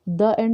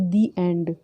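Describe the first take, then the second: First: 'The' is said with a short 'uh' vowel. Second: 'The' is said with a long 'ee' vowel. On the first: The speaker calls it wrong. "द end लिखा नहीं आता" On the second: The speaker calls it right. "इसलिए हम उसको दी एंड बोलते हैं"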